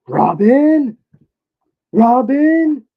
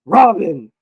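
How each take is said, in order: First: High questioning shout of Robin; wrong call. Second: Robin! shouted firm with a falling end; right call. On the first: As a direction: yell Robin? high and rising like a question, each falling at the end. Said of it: "that don't sound right". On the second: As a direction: call Robin! loud and sure, dropping pitch on the second syllable. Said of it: "Yep, that's good". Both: Pretend.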